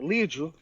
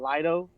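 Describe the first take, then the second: First: The name is said with a Portuguese pronunciation. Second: The name is said with a non-Portuguese pronunciation. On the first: "if I go with the Portuguese" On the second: "I'm trying not to say that"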